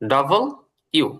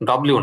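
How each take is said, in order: First: The name is said fully as two separate words. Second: The name is clipped into one run-together word. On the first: The speaker calls it right. "হচ্ছে ডাবল ইউ" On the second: The speaker calls it wrong. "ডব্লিউ না"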